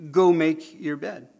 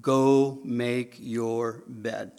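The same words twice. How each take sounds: First: Slow, firm go make your bed; firm parental order. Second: Child mockingly reciting Dad's words; mock slow recital. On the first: Retold or imitated. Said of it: "You say". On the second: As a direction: Go make your bed drawn out, very slow. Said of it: "You said".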